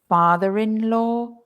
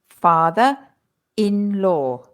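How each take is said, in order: First: An R sound links 'father' to 'in'. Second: No R sound between 'father' and 'in'. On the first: The speaker calls it right. "the R appears again in the pronunciation" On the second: The speaker calls it wrong. "If we don't pronounce the R"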